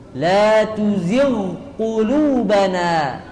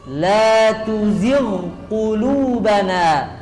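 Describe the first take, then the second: The two takes are said the same way.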